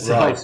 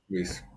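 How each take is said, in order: First: The vowel sounds like 'eye'. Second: The vowel sounds like 'ee'. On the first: Some people say the name this way. "Some people could pronounce it Rice" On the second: The speaker says his own name this way. "it's Reese"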